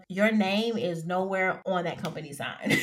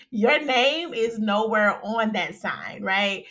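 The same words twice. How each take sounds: First: Laughing. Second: Slow composed restatement. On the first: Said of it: "I think I'm having too much fun". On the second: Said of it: "Let me stop". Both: Real, not acted.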